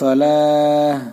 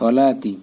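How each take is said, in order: First: The word ends in an h sound. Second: The word ends in a t sound plus vowel.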